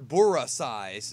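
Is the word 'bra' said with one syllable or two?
two. The word has an extra vowel, Japanese-style. The speaker calls it wrong. "We don't say"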